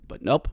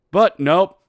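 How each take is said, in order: First: Said in the usual way. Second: Loud, punchy "But nope"; emphatic nope. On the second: Real, not acted. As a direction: bark out "But nope" at the refs. Snapping at the call.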